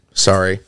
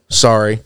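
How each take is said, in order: Both takes have the same delivery.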